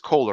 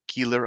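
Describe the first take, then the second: First: The first vowel sounds like 'oh'. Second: The first vowel sounds like 'ee'. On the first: The speaker believes the name is said this way. "I think it's Kohler" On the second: Some other people say the name this way. "Some people pronounce it Keeler"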